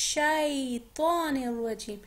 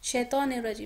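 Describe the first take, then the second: First: The first vowel is soft and drawn out. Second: The first vowel is short and clipped. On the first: The speaker calls it right. "शाई को नरमी से पढ़े" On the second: The speaker calls it wrong. "लोग पढ़ते हैं ना शैतानिर रजीम, नहीं"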